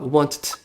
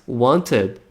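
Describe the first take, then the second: First: The e in the ending is silent. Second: The e in the ending is pronounced. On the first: The speaker calls it wrong. "a gente não fala wanted" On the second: The speaker calls it right. "Essa letra E, ela é pronunciada assim"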